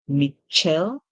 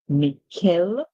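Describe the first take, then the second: First: The middle consonant is a soft sh sound. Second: The middle consonant is a hard k sound. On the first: "C H can make the ch sound" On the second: "It can also make the k sound"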